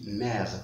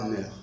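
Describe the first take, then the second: First: The vowel is an open 'eh' sound. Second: The vowel is a rounded 'euh' sound. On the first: The speaker calls it right. "On dit mère" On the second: The speaker calls it wrong. "et pas meur"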